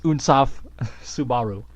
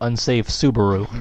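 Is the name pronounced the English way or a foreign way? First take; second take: foreign; English. First: The name is pronounced with non-English vowels. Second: The name is pronounced like ordinary English words. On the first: "but it's" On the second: "if we said it in English"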